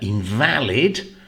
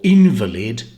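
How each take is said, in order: First: The stress is on the second syllable. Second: The stress is on the first syllable. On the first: Something is not correct or not proper. "adjective, which means not correct or not proper ... you stress either the middle syllable for the adjective" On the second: It names a sick person. "which is a noun meaning a sick person ... the first syllable for the noun"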